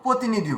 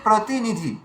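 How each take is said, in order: First: The r sound after the first consonant is dropped. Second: An r sound follows the first consonant. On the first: The speaker calls it wrong. "র ফলাকে আমরা খেয়ে ফেলি" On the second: The speaker calls it right. "রয়েছে কি প্রতিনিধি"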